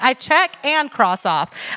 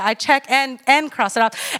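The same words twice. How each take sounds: First: "check" slow and stressed. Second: "and" stretched before "cross it off"; pause after and. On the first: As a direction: linger on "check", then "cross off". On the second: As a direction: break after "I check and". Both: Shown as a demonstration. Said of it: "I don't just check it".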